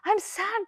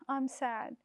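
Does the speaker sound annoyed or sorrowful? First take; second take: annoyed; sorrowful. First: It is said in an irritated, annoyed tone. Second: It is said in a sorrowful, downcast tone. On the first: The speaker wants to be left alone. "don't talk to me" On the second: The speaker is sharing their sadness. "I'm really sad"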